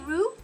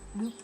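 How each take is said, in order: First: The first sound is a hard English R. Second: The first sound is a light D-like flap. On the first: "if you say roo, roo, it's okay" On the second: "Kind of got a D"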